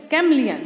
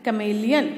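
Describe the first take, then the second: First: Chameleon said as "KAM-lee-un". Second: Chameleon said as "kuh-MAY-lee-un"; long "may" in the middle of chameleon, rising end. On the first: Teacher showing how to pronounce it, chameleon as kam-lee-un. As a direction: drop the middle vowel in chameleon, louder KAM first. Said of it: "इसको हम क्या pronounce करेंगे?". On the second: Teacher sounding out a spelling, chameleon as kuh-may-lee-un. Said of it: "इसको अलग pronounce करेंगे". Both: Shown as a demonstration.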